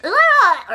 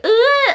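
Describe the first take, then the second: First: Loud high mocking "Ooh" with a laugh; high-pitched ooh. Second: A high squeaky catcall "Ooh"; high-pitched ooh. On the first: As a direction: shout it up high, half laughing. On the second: Retold or imitated. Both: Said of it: "it was like a high pitch".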